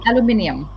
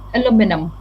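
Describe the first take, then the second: First: It has a British accent with every syllable clear. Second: It has an American accent with shortened sounds. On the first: "the British, ... all the sounds in the word ... are going to be extremely clear" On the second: "But the American, they kind of shorten the sounds"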